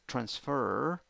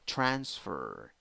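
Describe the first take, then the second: First: The stress is on the second syllable. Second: The stress is on the first syllable. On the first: "the second one" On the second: "or the first one"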